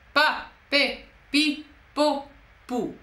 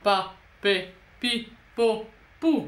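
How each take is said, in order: First: It is said with a swallowing, raised larynx. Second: It is said with a yawning, lowered larynx.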